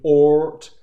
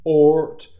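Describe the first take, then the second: First: The vowel is cut short, moving straight into T. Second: The same.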